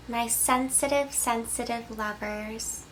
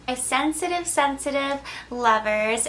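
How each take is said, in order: First: Tender softening. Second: Said in the usual way. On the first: Acted. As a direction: linger gently on sensitive. Tender address to sensitive viewers.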